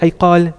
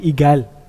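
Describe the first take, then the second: First: The middle consonant is a q-like sound. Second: The middle consonant is a hard g. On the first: This is what the thing is actually called. "they won't say iqal" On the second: This is how the wearers themselves pronounce it. "they'll say igal. But that's just because of how they're pronouncing the word"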